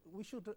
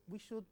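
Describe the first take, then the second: No difference in how they are said.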